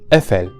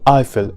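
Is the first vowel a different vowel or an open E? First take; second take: open E; different vowel. First: The word begins with an open E. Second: The word does not begin with an open E. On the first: The speaker calls it right. "with an open E at the beginning of the word" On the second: The speaker calls it wrong. "This word is never pronounced as Eiffel in French"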